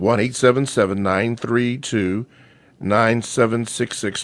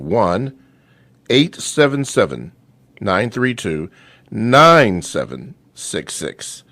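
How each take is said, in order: First: The number is read at a normal, quicker pace. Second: The number is read slowly and deliberately.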